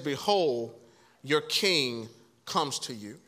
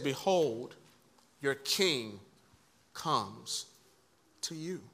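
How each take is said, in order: First: It is read at a quick pace. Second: It is read slowly and deliberately.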